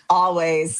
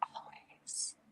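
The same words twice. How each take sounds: First: It is said loudly. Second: It is said quietly.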